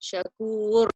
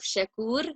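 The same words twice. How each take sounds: First: The r sound is heavy and full-mouthed. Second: The r sound is light and thin. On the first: The speaker calls it right. "I lift up my um, tongue" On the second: The speaker calls it wrong. "would be incorrect"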